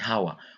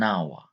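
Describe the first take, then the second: First: The word begins with an audible H sound. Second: The word begins with a vowel, no H sound. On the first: The speaker calls it wrong. "We don't read it like hour. We don't say hour" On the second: The speaker calls it right. "It is a silent H. So we say an hour"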